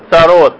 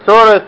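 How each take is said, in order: First: It is said as tsarot, ending in -ot. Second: It is said as tsores, ending in -es. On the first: "на иврите" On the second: "в идышском произношении"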